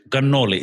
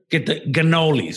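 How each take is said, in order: First: Cannoli said the Italian way, ga-NO-li. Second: Cannolis said the American way, with a plural s; mocking the American cannolis; American mispronunciation. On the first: Shown as a demonstration. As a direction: cannoli as in Italy. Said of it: "it's cannoli". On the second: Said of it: "They go".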